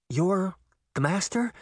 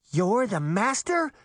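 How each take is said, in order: First: Higher, halting question; incredulous, with a rising end; stunned disbelief. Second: Higher, slow incredulous question; shocked cry, only slightly raised; mild shout. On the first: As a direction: ask it in shocked realisation. Stunned at discovering the traitor. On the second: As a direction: raise the pitch in shocked disbelief. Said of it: "Daphne shouted". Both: A narrator's reading.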